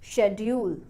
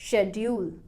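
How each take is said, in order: First: The stress is on the first syllable. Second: The same.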